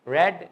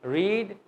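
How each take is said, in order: First: "ریڈ" with a short e, like red; second-form pronunciation. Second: "ریڈ" with a long ee, like reed; first-form pronunciation. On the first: Teacher differentiating forms for students, "ریڈ" as "red". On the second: Teacher differentiating forms for students, "ریڈ" as "reed". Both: Shown as a demonstration. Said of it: "پھر ہی تو differentiate کریں گے".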